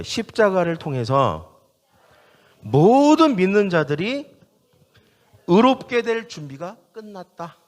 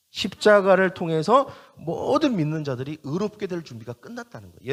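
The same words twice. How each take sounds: First: Slow, deliberate, phrase-by-phrase proclamation; call for repetition. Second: Said in the usual way. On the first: Shown as a demonstration. Preacher leading the congregation to repeat after him, emphatic call. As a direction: hand it out phrase by phrase to be echoed. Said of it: "저를 따라봐요". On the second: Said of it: "이게 무슨 말인지 알겠죠".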